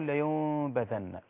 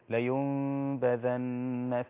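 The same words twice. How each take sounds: First: The lips stay apart with no m closure. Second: A light, nasal m with lips barely touching. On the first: The speaker calls it wrong. "ولا هقول لينبذن" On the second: The speaker calls it right. "إنما هي بين لينبذن في الحطمة هكذا"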